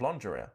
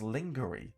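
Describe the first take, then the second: First: It is said in the usual French-style way. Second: It is said the way it is spelled. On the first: The speaker calls it right. "instead of lingerie" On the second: The speaker calls it wrong. "phonetically as lingerie"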